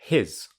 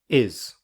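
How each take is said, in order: First: The word starts with a clear h sound. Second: The h sound is dropped from the word. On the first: "I'll firstly say the strong form" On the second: "then the weak form"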